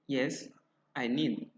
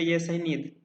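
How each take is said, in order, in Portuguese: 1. Há uma pausa longa depois de yes. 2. Há apenas uma pausa curta depois de yes.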